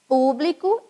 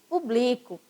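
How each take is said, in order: First: The stress is on the first syllable. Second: The stress is on the second syllable. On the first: It is a noun meaning the audience. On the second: It is a verb meaning I publish.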